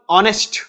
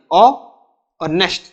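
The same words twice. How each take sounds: First: Said in the usual way. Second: "ऑनेस्ट" broken into two sounds, ऑ, pause, नेस्ट; split into syllables. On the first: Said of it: "मैंने बोला ऑनेस्ट". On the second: Shown as a demonstration. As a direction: say "ऑ" alone, pause, then "नेस्ट". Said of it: "अब इसमें दो sound आ रही है".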